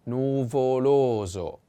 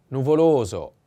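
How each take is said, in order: First: Nuvoloso said very slowly, nu-vo-LO-so, stress on the second o; slow careful model. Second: Said in the usual way. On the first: Shown as a demonstration. Teacher modelling the word slowly for students. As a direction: stretch Nuvoloso out for learners. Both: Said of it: "The accent is on the second O".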